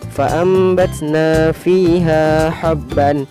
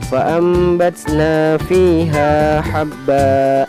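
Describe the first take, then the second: First: The last word ends with an n sound. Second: The last word ends with a long vowel.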